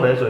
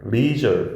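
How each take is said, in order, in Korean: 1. 한국식 외래어 발음이에요. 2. 영어 발음이에요. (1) "우리 레저 레저 이런 말 하잖아" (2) "실제 발음은 leisure 이렇게 발음해야 돼"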